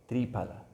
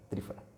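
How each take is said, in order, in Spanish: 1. La consonante del medio es un sonido P. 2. La consonante del medio es un sonido F. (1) "en sánscrito se, se dice pa" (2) "se pronuncia como fa, como nuestra F"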